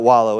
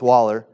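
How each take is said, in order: First: The word ends with an 'oh' sound. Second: The word ends with an 'er' sound. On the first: The speaker calls it wrong. "It's not wallow" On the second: The speaker calls it right. "it's waller. That's really how you say it"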